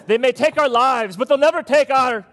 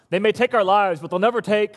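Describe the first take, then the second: First: Put-on louder, higher shouted Scottish accent, rallying the crowd; Scottish battle cry. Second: Rising battle cry, held back; restrained Braveheart quote. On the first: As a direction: roar it like William Wallace in a Scottish accent. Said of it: "It was the British accent that did it". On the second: Retold or imitated. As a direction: quote William Wallace moderately, not yet full force. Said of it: "I'm no William Wallace".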